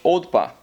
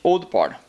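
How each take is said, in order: First: The R sounds are dropped. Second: The R sounds are pronounced.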